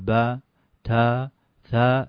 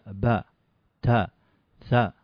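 First: The vowels are drawn out long. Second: The vowels are kept short. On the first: The speaker calls it wrong. "ما نقول با تا ثا" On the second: The speaker calls it right. "حركة حركة حركة فقط"

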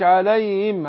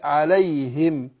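First: The h sound is weak and barely pronounced. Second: The h sound is pressed and clearly pronounced. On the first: The speaker calls it wrong. "مش عليهم" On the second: The speaker calls it right. "عليهم كده"

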